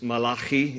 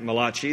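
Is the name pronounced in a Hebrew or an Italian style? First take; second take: Hebrew; Italian. First: The name is pronounced in a Hebrew style. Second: The name is pronounced in an Italian style. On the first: The speaker calls it right. "His name in Hebrew is Malachi" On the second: The speaker calls it wrong. "That's some Italian guy"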